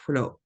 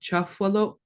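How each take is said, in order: First: No vowel follows the first consonant. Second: A short schwa vowel follows the first consonant. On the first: "you can drop that for just twolo" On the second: "sometimes a schwa"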